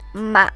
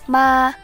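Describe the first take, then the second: First: The pitch falls and then rises again. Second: The pitch stays high and level. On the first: "The third tone falls and then rises again" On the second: "The first tone is high and level"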